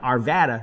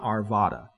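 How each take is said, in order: First: It is said the way locals say it. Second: It is said the way outsiders say it. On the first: The speaker is from the area. The speaker calls it right. "if you're there, you went to Arvada" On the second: The speaker is not from the area. The speaker calls it wrong. "not Arvada"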